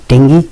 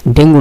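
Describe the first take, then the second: First: "ডেঙ্গি" ending in an ee sound; corrected pronunciation. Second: "ডেঙ্গু" ending in an oo sound; common mispronunciation. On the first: Teacher correcting how learners say the disease, corrected pronunciation. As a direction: say "ডেঙ্গি" with final -gi. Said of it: "এর উচ্চারণটা আসলে ডেঙ্গি". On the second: Teacher quoting the common local pronunciation, mispronounced. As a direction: say "ডেঙ্গু" with final -gu. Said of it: "ডেঙ্গু না, উচ্চারণটা আমরা অনেকে ডেঙ্গু বলি". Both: Shown as a demonstration.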